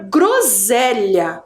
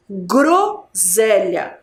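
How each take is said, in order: First: Said in the usual way. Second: "Groselha" very slowly, split after the first syllable. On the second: Shown as a demonstration. Teacher shows the class the sílaba gro, slow and syllable by syllable. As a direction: say "Groselha" drawn out, GRO held apart from the rest. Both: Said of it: "Sílaba gro".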